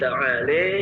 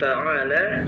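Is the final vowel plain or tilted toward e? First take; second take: tilted; plain. First: The final vowel is tilted toward e. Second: The final vowel is a plain open a.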